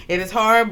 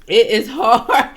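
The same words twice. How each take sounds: First: Said in the usual way. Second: Louder, drawn out slowly through a laugh. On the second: Real, not acted. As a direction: let "It is hard" burst out through laughter. Laughing at the story.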